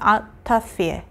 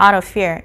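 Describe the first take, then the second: First: The T is cut off crisply before 'of'. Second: The T is softened and linked into 'of'. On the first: "영국식 발음은 T를 딱 끊어주죠" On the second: "이렇게 보통 발음을 하는데"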